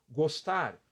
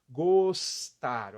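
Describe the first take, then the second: First: Said in the usual way. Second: "Gostar" split loudly into two long syllables, gos-tar; two mouth movements. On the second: Shown as a demonstration. Teacher counting mouth movements, "Gostar" syllable by syllable. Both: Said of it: "dois movimentos de boca".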